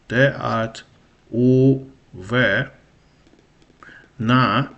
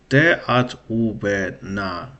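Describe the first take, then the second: First: The phrase is said slowly and haltingly. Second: The phrase is said quickly and smoothly.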